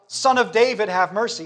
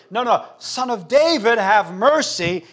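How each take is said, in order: First: Raised, louder plea for mercy; crying out. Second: Crying out the more. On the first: Blind beggar calling to Jesus, crying out. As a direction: call out over a crowd, high and loud. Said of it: "Bartimaeus cries out". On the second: Hushed beggar insisting to Jesus, crying out louder. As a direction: refuse to be hushed, call louder and higher. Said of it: "he cries out the more as they hush him". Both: Acted.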